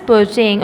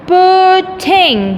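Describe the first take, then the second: First: Said in the usual way. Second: "Putting" broken into put-ting, pitched high; syllable by syllable. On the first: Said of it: "because there are two vowels". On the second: Shown as a demonstration. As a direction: stretch both syllables of "Putting". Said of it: "there are two syllables".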